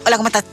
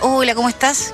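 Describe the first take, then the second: First: The greeting sounds curt and angry. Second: The greeting sounds warm and friendly. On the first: The sender seems to be annoyed. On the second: The sender is in a good mood.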